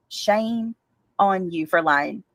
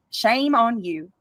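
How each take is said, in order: First: Slower, lower scolding. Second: Slow scolding. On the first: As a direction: Shame dropped low and drawn out, on rising. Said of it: "scolding, lower and slower". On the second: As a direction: Shame on you spoken slowly, each word weighed. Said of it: "scolding, slowed". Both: Real, not acted.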